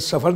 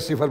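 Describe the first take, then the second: First: The first vowel is an 'a' sound. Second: The first vowel is an 'i' sound. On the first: The speaker calls it wrong. "सफर नहीं बोला जाएगा" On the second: The speaker calls it right. "सिफर बोला जाएगा"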